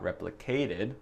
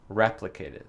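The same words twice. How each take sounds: First: The stress is on a later syllable. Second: The stress is on the first syllable. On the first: The speaker calls it wrong. "C'est pas replicated" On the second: The speaker calls it right. "le premier syllabe, je crois, dans replicated"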